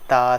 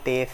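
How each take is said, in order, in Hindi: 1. यह अरबी शैली के उच्चारण में कहा गया है। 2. यह उर्दू शैली के उच्चारण में कहा गया है। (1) "बल्कि ... पढ़ें" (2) "उर्दू तलफ़्फ़ुज़ से परहेज़ करें"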